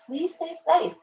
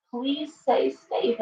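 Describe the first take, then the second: First: Said in the usual way. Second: Slow it right down and mean every word; slow, earnest plea. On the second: Real, not acted. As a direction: stretch out "Please stay safe" slowly, each word weighted.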